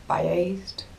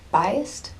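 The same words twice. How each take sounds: First: "Biased" with a long AY in the second syllable, bye-ACED; trying a pronunciation. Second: "Biased" as BYE-ust with a rising end; questioning pronunciation. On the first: Unsure how to say the word, "Biased" as bye-ACED. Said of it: "or however it's pronounced". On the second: Checking how to say it, "Biased" as questioning BYE-ust. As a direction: ask with "Biased", weak second vowel, BYE-ust. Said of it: "Is that how you say it?". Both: Shown as a demonstration.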